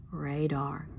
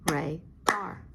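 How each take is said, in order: First: Said in the usual way. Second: Radar split into two clapped beats, RA and DAR; clapped out by syllable. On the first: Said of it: "we're gonna slide our finger". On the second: Shown as a demonstration. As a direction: clap each syllable of Radar. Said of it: "Let's clap it out".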